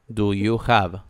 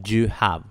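First: Both words of 'do you' are said fully. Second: 'Do you' is squeezed together into one quick syllable. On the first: "en lugar de decir do you" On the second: "asimilación fonética"

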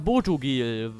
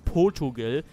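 First: The name begins with a plain 'Bo' sound. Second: The name begins with a sound like 'Post'. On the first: The speaker calls it right. "Aber es heißt ja Podugel" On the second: The speaker calls it wrong. "Ich habe es früher immer Podugel genannt, wegen dem Post"

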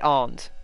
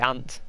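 First: It is said in a southern accent. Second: It is said in a northern accent.

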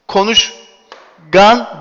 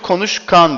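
First: The middle consonant is a g sound. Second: The middle consonant is a k sound. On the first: The speaker calls it wrong. "hiçbirimiz gidip konuşgan demiyoruz" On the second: The speaker calls it right. "Konuşkan diyoruz"

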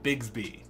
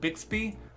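First: The middle sounds like a 'gz' sound. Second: The middle sounds like a 'ks' sound. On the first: The speaker calls it right. "I say Bigsby" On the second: The speaker calls it wrong. "Instead of saying Bixby"

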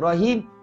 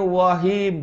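First: The first sound is a clear R. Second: The first sound is a W, not an R.

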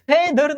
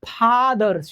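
First: The first vowel is a front eh. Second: The first vowel is a long open ah. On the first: The speaker calls it wrong. "ફેધર નહીં" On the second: The speaker calls it right. "ફાધર છે"

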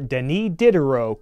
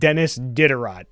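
First: The name is said with a French pronunciation. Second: The name is said with an American pronunciation. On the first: "I'm gonna try to stick with the French way of saying it" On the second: "if you're American, his name is pronounced"

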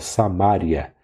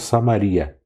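First: The stress falls on the syllable ma. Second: The stress falls on the syllable ri. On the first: The speaker calls it right. "mas é Samária" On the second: The speaker calls it wrong. "o modo correto de se falar não é Samaria"

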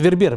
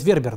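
First: The stress is on the second syllable. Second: The stress is on the first syllable. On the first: The speaker calls it right. "Причем ударение я правильно делаю. Именно Вербер. У всех французов на второй слог" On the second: The speaker calls it wrong. "Многие говорят Вербер, но это неправильно"

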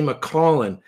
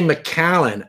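First: The first vowel sounds like the vowel in 'call'. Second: The first vowel sounds like the vowel in 'cat'. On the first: The double letter is read like in 'call'. "I say McCallan because there's two L's" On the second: This is how most people say it. "people say McCallan"

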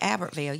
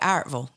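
First: The name is said in full, all syllables. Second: The name is said shortened, middle syllables dropped. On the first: The speaker is not from the town. "you don't say Albertville" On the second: The speaker is from the town. "you say Artville"

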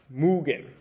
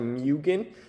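First: The first syllable sounds like 'moo'. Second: The first syllable sounds like 'myoo'. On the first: The speaker calls it right. "it should be pronounced Moo-gen" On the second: The speaker calls it wrong. "I've actually been saying the word Moo-gen wrong the whole time. I've been calling it the Myu-gen"

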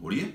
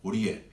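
First: It sounds puzzled, as if asking who. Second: It sounds mildly impressed and accepting. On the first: Who is that person? "ホリエ誰それだし" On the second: Oh, I see, how interesting. "ホリエへーだし"

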